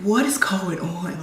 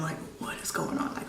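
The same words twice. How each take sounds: First: Said in the usual way. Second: Hushed, frightened whisper; soft breathy whisper; whispered question. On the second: Retold or imitated. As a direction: whisper it, dreading the answer. Repeats it hushed.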